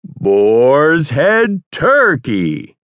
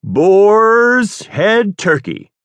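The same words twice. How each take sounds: First: "turkey" leaned on, drawn out very slow and higher; stress on turkey. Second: Big, slow, much higher and louder announcer voice; announcer with more gusto. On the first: Trying a new stress for the director, slow with "turkey" punched. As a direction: drag out "turkey" with weight in a slow announcer read. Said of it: "accentuating the right syllable". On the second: Told to add gusto, an even bigger announcer voice. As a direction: ham up the radio read. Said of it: "A little more gusto this time". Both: Shown as a demonstration.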